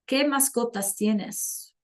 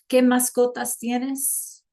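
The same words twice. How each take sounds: First: Said in the usual way. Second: Slow, clear teacher model of ¿Qué mascotas tienes?; slow classroom question in Spanish; slow demo. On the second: Shown as a demonstration. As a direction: say the question slowly for learners. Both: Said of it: "Can you tell me in chat".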